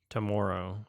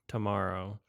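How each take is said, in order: The two takes are said the same way.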